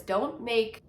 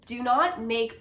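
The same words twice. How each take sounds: First: Said in the usual way. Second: Slow, separate stress on "do not make"; emphatic restatement. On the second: Real, not acted. Coach warning teachers off perfectionism, slowly emphatic.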